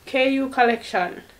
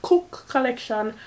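First: The first part is spelled out as K-U. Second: The first part is said as one word, cook. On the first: The speaker calls it right. "It's KU Collection" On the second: The speaker calls it wrong. "not Cook Collection"

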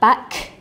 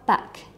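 First: The final k is released strongly and heavily. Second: The final k is released lightly and softly. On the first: The speaker calls it wrong. "we wouldn't say back" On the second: The speaker calls it right. "we'd say back"

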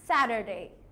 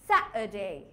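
First: It is said in an American accent. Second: It is said in a British accent.

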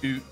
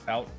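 First: It is said in a Canadian accent. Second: It is said in his plain accent.

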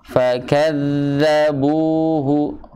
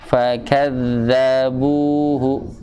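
No difference in how they are said.

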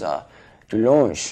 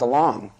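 First: The name is said the French way. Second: The name is said the speaker's usual way. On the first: The speaker calls it right. "I went to France and they said you're pronouncing it wrong" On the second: The speaker calls it wrong. "I'm all DeLong"

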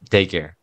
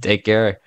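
First: It sounds warm and sincere. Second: It sounds flat and insincere. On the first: The speaker calls it right. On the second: The speaker calls it wrong.

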